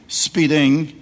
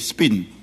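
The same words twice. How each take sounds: First: The final g sound is pronounced. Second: The final g sound is dropped. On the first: "they don't say speeding" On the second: "they say speeding"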